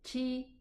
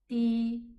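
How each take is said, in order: First: The consonant has a lot of air, like sh. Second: The consonant is crisp with little air. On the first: The speaker calls it wrong. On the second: The speaker calls it right.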